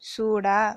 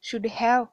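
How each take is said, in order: First: Have shrinks to a short a sound. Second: Have is pronounced fully as a separate word.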